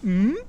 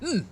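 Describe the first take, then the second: First: The pitch rises from low to high. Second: The pitch falls sharply from high to low. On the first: "second tone" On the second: "fourth tone, like you're mad"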